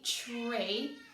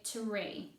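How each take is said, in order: First: The opening sound is blurred, not a clear t-r. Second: The opening is a clear t followed by r. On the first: The speaker calls it wrong. "I don't say tree" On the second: The speaker calls it right. "I say tree"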